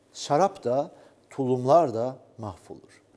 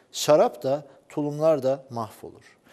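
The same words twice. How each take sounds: Both takes have the same delivery.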